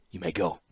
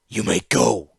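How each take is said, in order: First: Said in the usual way. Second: Hard and final, granite in "go"; a master repeating his dismissal, cold and stony. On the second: A narrator's reading. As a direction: say "You may go" like a closed door. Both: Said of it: "There was granite in his stone voice".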